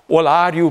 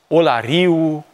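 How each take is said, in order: First: The stress falls before the last syllable. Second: The stress falls on the last syllable. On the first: This is the old traditional form of the name. The speaker calls it right. "a rămas în vorbirea unor zone tradiționale" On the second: This is a Greek-influenced form of the name. The speaker calls it wrong. "deplasarea accentului pe ultima silabă"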